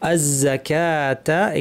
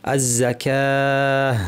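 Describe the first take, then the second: First: The word ends with a full 'ta' syllable. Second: The word ends with a quiet 'h' sound. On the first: The reading continues without stopping. "আজকের শব্দটা হচ্ছে আজ-জাকাতা" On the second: The reading stops at this word. "যখন আমরা থেমে যাব আমরা বলবো আজ-জাকাহ"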